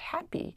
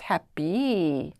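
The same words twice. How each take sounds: First: It is said with a British English accent. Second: It is said with a Singapore English accent. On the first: "in his very British English way" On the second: "we sort of chanted "happy" in a very Singapore English accent"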